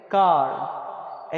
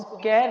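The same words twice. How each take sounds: First: "कार" with a long open "आ" before r. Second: "कैर" with an open "ऐ" before r; mistaken short A. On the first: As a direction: slowly stretch "कार" with an aah vowel. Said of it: "इसको हम पढ़ेंगे". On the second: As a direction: say car wrongly as "कैर", with the vowel of cat. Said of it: "कैर नहीं पढ़ेंगे". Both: Shown as a demonstration.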